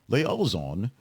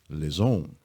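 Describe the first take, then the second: First: The word is said with an English pronunciation. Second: The word is said with a French pronunciation. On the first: "a whole lot of different ways to sort of pronounce it" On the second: "the French say liaison"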